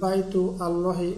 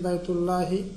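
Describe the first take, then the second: First: The words are kept apart, with a separate vowel. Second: The words run together with no separate vowel. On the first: The speaker calls it wrong. "বলছি না" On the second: The speaker calls it right. "সরাসরি বলে ফেলছি"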